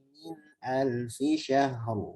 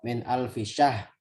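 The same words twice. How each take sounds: First: The final r is clearly and fully pronounced. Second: The final r is dropped and not heard. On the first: The speaker calls it right. "saya contohkan dulu" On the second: The speaker calls it wrong. "rohnya hilang semua"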